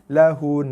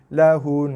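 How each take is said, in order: The two takes are said the same way.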